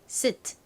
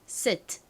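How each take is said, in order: First: The final t is lightly but clearly audible. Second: The final t is lightly but clearly audible.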